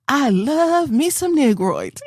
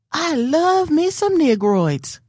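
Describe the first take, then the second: First: High, slow mock lady voice; imitating the lady for her daughter, drawn out; quoting the lady again. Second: High, slow mock sweet lady voice; lady's voice lifted high, drawn out slowly; quoting the lady. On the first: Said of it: "This lady over here said". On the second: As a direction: imitate the grocery store lady, high and slow. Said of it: "And she said".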